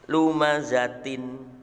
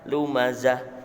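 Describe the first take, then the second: First: The word ends with a 't' and 'in'. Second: The word ends with a stopped 'h' sound. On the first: This is the written full form. "Seperti tulisan lumazatin" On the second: The reader stops at this word. "Tapi ketika wakaf, tak ini wakaf, maka harus dibaca hak"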